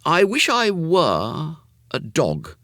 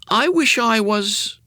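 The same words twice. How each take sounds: First: High, slow corrected wish; boy Jimmy wishing. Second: Put-on high, slow boyish start; boy Jimmy wishing. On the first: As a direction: say the wish carefully, slowly. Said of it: "said Jimmy". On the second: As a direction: start the wish slowly like a boy. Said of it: "he began". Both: A narrator's reading.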